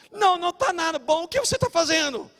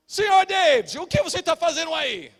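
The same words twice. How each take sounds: First: High, loud scolding retort; indignant doorman. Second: High, loud call from behind; doorman calling out. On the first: Doorman refusing a friendly greeting, indignant and high. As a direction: imitate a doorman demanding an explanation. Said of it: "o porteiro". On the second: Doorman catching his friend at the supermarket, calling out sharply. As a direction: imitate an accusing doorman, pitched way up. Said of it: "eu escuto uma voz". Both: Retold or imitated.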